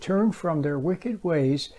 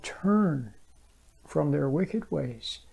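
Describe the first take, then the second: First: The word turn gets no special emphasis. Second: The word turn is given strong emphasis.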